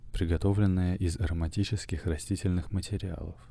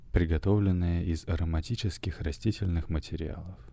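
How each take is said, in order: No difference in how they are said.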